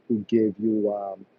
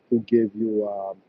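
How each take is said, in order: Both takes have the same delivery.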